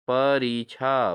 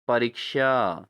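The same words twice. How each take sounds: First: परीक्षा slowly as "pa-ree-chhaa"; wrong pronunciation. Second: परीक्षा with a clear "ksha"; correct pronunciation. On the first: Teacher shows students the error, परीक्षा as "pareechha". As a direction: soften ksha to chha in परीक्षा. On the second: Teacher corrects students, परीक्षा as "pareeksha". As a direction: sound the k in परीक्षा, "pa-reek-shaa". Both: Shown as a demonstration. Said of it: "परीक्षा नहीं".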